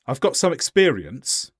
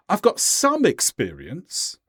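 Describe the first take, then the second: First: Said in the usual way. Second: "some" stressed and stretched, slower delivery; emphasis on some. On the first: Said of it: "listen carefully to the difference". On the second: Shown as a demonstration. Teacher lets learners hear the difference, extra stress on "some". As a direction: punch the word "some" and draw it out. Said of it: "Adding that extra emphasis".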